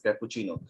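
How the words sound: It is said with an English-style pronunciation. The speaker calls it wrong. "English people or we also uh, happen to use as cappuccino, pronounce it as cappuccino"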